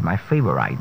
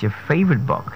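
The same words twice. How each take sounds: First: "favorite" ending in -ite, like right; mispronounced favorite. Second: "favorite" ending in short -it; correct pronunciation. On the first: Coach showing a word we don't pronounce right, mispronunciation. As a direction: say "favorite" as fave-uh-rite. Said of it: "another word we don't pronounce right". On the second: Coach correcting the word for learners, correct pronunciation. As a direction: say "favorite" as fay-vuht, higher pitched. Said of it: "It's your favorite book". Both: Shown as a demonstration.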